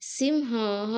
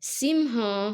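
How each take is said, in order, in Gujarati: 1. આ શબ્દના અંતે શ્વાસયુક્ત h છે. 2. આ શબ્દના અંતે શ્વાસયુક્ત h છે.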